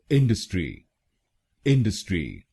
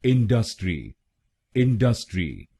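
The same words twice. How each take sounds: First: इंडस्ट्री with stress on इन and a quick डस; इंडस्ट्री said IN-dus-tri; इंडस्ट्री the right way, short middle; correct, quick middle. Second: इंडस्ट्री stretching the middle syllable; इंडस्ट्री the wrong Indian way, dragged middle; wrong, stretched middle. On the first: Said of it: "डीयू को जल्दी बोला जाता है". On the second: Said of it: "खींच के बोलते हैं". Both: Shown as a demonstration.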